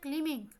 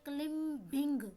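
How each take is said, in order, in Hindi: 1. b की ध्वनि m के बाद मूक है। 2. b की ध्वनि m के बाद उच्चारित होती है। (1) "लफ्ज़ होता है क्लिमिंग ... बी की आवाज़ जो है वो सुनाई नहीं देती" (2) "अगर आप इसको तोड़ तोड़ के पढ़ेंगे तो आप कहेंगे क्लिम्बिंग। क्लिम्बिंग कोई लफ्ज़ नहीं होता"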